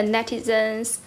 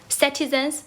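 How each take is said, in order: First: Says "netizens" by mistake, with a plain n at the start; wrong word netizens. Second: "citizens" with a clear s at the start, rising a little; corrected word citizens. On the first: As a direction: slip out "netizens", a net- start where citizens belongs. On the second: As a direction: correct yourself to "citizens" with a clean s sound. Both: Real, not acted.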